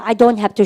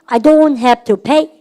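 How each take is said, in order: First: Said in the usual way. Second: Very slow, each word stretched and a bit louder; slow drill. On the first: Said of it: "해보세요". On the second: Shown as a demonstration. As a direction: lay it out slowly for the class. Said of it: "시작".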